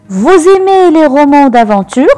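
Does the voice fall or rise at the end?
rises. The voice rises at the end, as a question.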